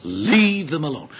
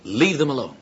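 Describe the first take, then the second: First: Slow, deliberate rebuke; sharp command. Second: Said in the usual way. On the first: Acted. Jesus rebuking his disciples, sharp and deliberate. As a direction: repeat it firmly, drawing out each word. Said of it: "Jesus spoke sharply". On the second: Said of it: "his words are literally".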